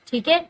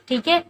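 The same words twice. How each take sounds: The two takes are said the same way.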